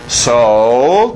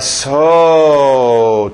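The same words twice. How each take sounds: First: The word is said plainly, without extra emphasis. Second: The word is drawn out with exaggerated emphasis. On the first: It refers back to what came before. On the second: It intensifies the following adjective.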